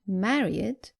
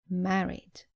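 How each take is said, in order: First: The ending is an extra 'id' syllable. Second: The ending adds no extra syllable. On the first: The speaker calls it wrong. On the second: The speaker calls it right.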